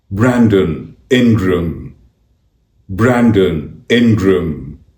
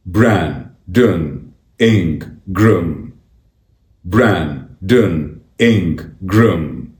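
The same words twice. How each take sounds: First: Said in the usual way. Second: "Brandon Ingram" slowly split as Bran, don, In, gram; syllable by syllable. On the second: Shown as a demonstration. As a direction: say "Brandon Ingram" slowly with a clear gap after each syllable. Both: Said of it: "It's pronounced".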